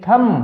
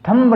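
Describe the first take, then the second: First: The word ends on the m, no b. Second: The word ends with an audible b sound. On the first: The speaker calls it right. "बी को silent रखना है" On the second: The speaker calls it wrong. "थम्ब नहीं"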